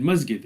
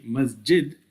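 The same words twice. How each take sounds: First: 'masjid' with a hard g, mas-gid; 'masjid' pronounced mas-gid, hard g; Egyptian hard g. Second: 'masjid' with a soft English j, mas-jid; 'masjid' pronounced mas-jid, soft j; soft j masjid. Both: Shown as a demonstration. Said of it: "you didn't say masjid, you said masjid".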